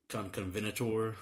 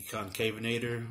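First: Conconvenator said with a doubled "con-con"; alternative pronunciation. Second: Concavenator said kon-KAY-vuh-nay-ter; usual pronunciation. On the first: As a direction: say Conconvenator with "con-con-ven" in place of "con-kay-ven". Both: Shown as a demonstration. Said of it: "others pronounce it".

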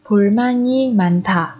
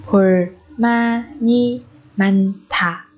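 First: Said in the usual way. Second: "Bulmani manta" very slowly, syllable by syllable; teacher's drawn-out model of "Bulmani manta". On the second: Shown as a demonstration. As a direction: pause between each syllable of "Bulmani manta". Teacher repeats phrase syllable by syllable.

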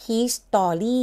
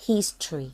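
First: "history" as three full syllables, his-TOR-ree; mispronounced history. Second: "history" in two syllables, HIS-tree, falling; correct history. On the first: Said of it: "อันนี้ไม่อ่านว่า history". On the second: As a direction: drop the middle vowel of "history": HIS-tree. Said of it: "อ่านว่า history". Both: Shown as a demonstration.

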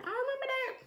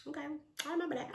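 First: Very high put-on squeak; squeaky mock grudge. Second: Quick, high put-on voice; playful grudge. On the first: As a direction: squeal it as a playful vow. Repeats vow far higher. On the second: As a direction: toss it off high and fast. Playful vow to remember the slight.

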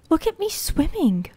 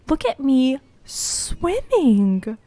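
First: High, delighted cry. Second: Slow, stretched repeat in a put-on voice; drawn-out. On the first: Player swimming for the first time, high and delighted. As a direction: show off proudly. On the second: Player repeating the line slowly in a goofy voice. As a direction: stretch every word, savouring it. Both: Real, not acted.

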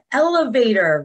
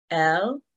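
First: Said in the usual way. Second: "Elevator" broken into el, e, va, tor; clapped-out syllables. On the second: Shown as a demonstration. Teacher clapping with children, "Elevator" in four separate beats. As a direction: pause after every syllable of "Elevator". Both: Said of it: "we're gonna clap out the syllables".

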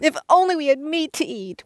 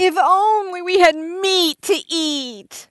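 First: Higher, angrier complaint; angry whine. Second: High, slow, drawn-out whine; whiny voice. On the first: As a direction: whine with more anger. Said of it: "I didn't hear enough anger". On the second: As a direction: whine it like a spoiled child. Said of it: "You have to read it with a whiny voice". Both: Acted.

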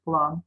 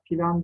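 First: Said in the usual way. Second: "plan" in two syllables, pilan; an i slipped between p and l in "plan"; misspelt form. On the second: Shown as a demonstration. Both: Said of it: "plan değil".

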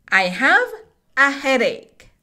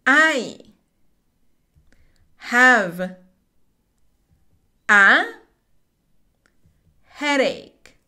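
First: "I have a headache." read smoothly in one breath. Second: Slow, one word at a time with long pauses; teacher drilling each word slowly. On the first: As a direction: run the words together without pausing. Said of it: "Vamos a decir esta oración de corrido". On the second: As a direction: space out "I have a headache." word by word. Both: Shown as a demonstration.

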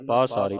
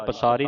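First: ਪਾਸਾਰੀ with a long "aa" after the p; ਪਾਸਾਰੀ, long first vowel. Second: ਪਸਾਰੀ with a short "uh" after the p; ਪਸਾਰੀ, short first vowel; mistaken short a. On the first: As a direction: say ਪਾਸਾਰੀ as PAA-saa-ree. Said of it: "ਪਾਸਾਰੀ ਪੱਪੇ ਕਰਨਾ". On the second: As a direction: say ਪਸਾਰੀ as puh-SAA-ree. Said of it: "ਪਸਾਰੀ ਨਹੀਂ ਪੜ੍ਹਨਾ". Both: Shown as a demonstration.

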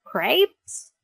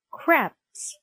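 First: "Crepes" said with a long a, like "krayps", rising; puzzled mispronunciation. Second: "Crepes" said with a short e, like "krepps"; French-style pronunciation. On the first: Dog repeats an unknown food, "Crepes" as rising "krayps". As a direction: echo "Crepes" as a questioning "krayps", like grapes. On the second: Bulldog names the smell for his friend, "Crepes" as falling "krepps". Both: Acted. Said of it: "I repeat".

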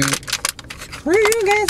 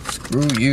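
First: Very high, stretched-out squeal; hammed-up sulky falsetto; mock cartoon whine. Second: Said in the usual way. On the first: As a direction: whine it slowly in a silly high voice. Repeats curse in put-on voice.

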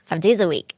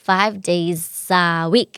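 First: "Five days a week" quickly run together; linked words. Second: "days a" drawn out as day-za, then week; slow linking demo. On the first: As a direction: link days into a as day-za, no gaps. (เชื่อม Five days a week รวดเดียว) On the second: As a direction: break down "Five days a week" piece by piece. (แจกเสียง Five days a week ช้าๆ) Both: Shown as a demonstration. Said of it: "ก็เชื่อมเสียงเหมือนกันค่ะ".

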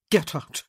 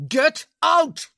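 First: Said in the usual way. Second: Much higher, much louder roar. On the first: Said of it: "he said". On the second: Acted. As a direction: roar it at full force. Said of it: "he roared".

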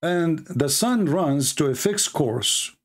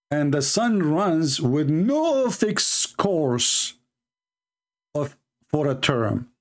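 First: Deliberate slow reading of the first version. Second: "no" in "with no fixed course" given the main fall and weight, read slowly; slow reading that lands on "no"; stress on no. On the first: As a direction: read "to a fixed course" slowly, with no extra stress. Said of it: "It says the opposite". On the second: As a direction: lean hard on "no" to show the contradiction. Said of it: "This is the opposite". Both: Shown as a demonstration.

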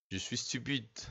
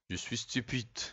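No difference in how they are said.

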